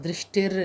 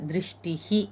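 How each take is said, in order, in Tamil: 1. இந்தச் சொல் r ஒலியில் முடிகிறது. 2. இந்தச் சொல் மூச்சொலி கலந்த h ஒலியில் முடிகிறது. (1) "இல்லை" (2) "இர்ரை கேன்சல் பண்ணிவிட்டு விசர்கா போட்டு"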